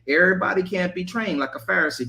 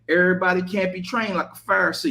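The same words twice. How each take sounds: First: It is said in the speaker's ordinary voice. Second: It is said in a put-on street voice.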